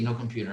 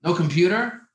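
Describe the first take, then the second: First: Said in the usual way. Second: Louder, rising No computer? asked in disbelief; incredulous. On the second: Shown as a demonstration. Speaker asks the crowd in disbelief, a loud rising No computer?. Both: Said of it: "Could you imagine?".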